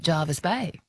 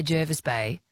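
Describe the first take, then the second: First: "Jarvis Bay" said "JAR-vis"; "Jarvis Bay" with an open AH; popular pronunciation. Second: "Jervis Bay" said "JUR-vis"; "Jervis Bay" as locals say it, with ER; local pronunciation. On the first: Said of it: "many people say". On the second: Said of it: "I think locals say". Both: Shown as a demonstration.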